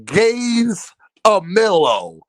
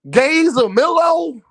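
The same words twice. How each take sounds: First: "Gays a Millo" drawn out slowly, each syllable split apart; syllables spelled out. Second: "Gays a Millo?" asked higher and slower in disbelief; incredulous question. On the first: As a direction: break "Gays a Millo" into slow separate syllables. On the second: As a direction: toss "Gays a Millo?" up high like you can't believe it. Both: Shown as a demonstration. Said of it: "listen to the syllables in that bitch".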